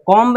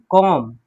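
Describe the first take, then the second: First: कॉम्ब with a voiced b after the m; wrong, B sounded. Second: कॉम closing on m, no b; silent B. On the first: Teacher showing the reading to avoid, कॉम्ब with a sounded B. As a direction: end कॉम्ब on an audible buh, pitched up. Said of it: "नहीं". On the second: Teacher correcting the reading, कॉम without any B. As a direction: drop pitch and finish कॉम on a hummed m. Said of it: "कॉम्ब नहीं". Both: Shown as a demonstration.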